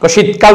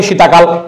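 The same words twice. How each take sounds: First: Said in the usual way. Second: শীতাকাল with an added long "a" after শীত; wrong form shown. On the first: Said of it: "আমরা কি বলি". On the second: Shown as a demonstration. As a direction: say শীতাকাল with the extra vowel, sheeta-kal. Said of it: "কেউ কিন্তু ভুলেও বলছেন না".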